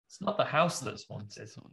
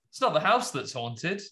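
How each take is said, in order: First: The line is said in a grave, somber tone. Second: The line is said in a plain, light tone. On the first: The speaker calls it right. "She says it in a more somber way, I imagine" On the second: The speaker calls it wrong. "She doesn't say it like that either"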